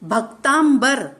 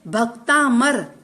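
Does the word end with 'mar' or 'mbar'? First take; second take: mbar; mar. First: The word is said with 'mbar' at the end. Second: The word is said with 'mar' at the end. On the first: The speaker calls it wrong. "कई लोगों के मुख से सुना है भक्तांबर" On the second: The speaker calls it right. "सही शब्द है भक्तामर"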